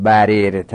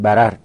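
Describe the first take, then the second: First: بررت said barirta with kasra on the middle r, the forbidden form; بررت with an i vowel, shown as the mistake; بررت pronounced bareret, the wrong way. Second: بررت said bararta with fatha on both r's; بررت all fatha, bararta, as it must be; بررت pronounced bararta, the right way; correct form. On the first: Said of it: "دیگه حق نداریم بگیم". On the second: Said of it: "باید بگیم". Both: Shown as a demonstration.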